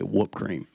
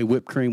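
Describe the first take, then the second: First: The first word has the 'oo' vowel. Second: The first word has the short 'ih' vowel. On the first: This is how it is said in the speaker's home. "We say whoop cream" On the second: This is how other people say it. "We don't say whipped cream"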